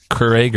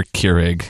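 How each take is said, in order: First: Keurig in the first of two pronunciations; first pronunciation variant. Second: Keurig in the second of two pronunciations; second pronunciation variant. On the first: Co-host asks how to say Keurig, first variant. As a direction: offer Keurig one way, set against the other. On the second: Co-host asks how to say Keurig, second variant. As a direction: offer Keurig the alternative way, as a contrast. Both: Shown as a demonstration. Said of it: "a lot of people pronounce it both ways".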